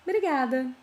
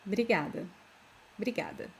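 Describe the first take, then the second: First: Obrigada with the first O sounded out, o-bri-ga-da; careful textbook Obrigada, opening O spoken; full careful obrigada. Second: Obrigada with the first O dropped, bri-ga-da; casual Brazilian Obrigada, starting straight on bri; everyday obrigada. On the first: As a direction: say every syllable of Obrigada, starting on a clear O. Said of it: "don't pronounce this O". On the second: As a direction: swallow the opening O of Obrigada as natives do. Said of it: "It's more common to say". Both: Shown as a demonstration.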